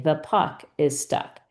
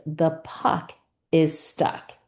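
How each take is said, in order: First: Said in the usual way. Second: "The puck", small pause, "is stuck", slowly; slow dictation. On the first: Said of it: "you have to say". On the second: Shown as a demonstration. Teacher gives student a sentence to repeat, slow dictation. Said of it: "maybe I give you the sentence".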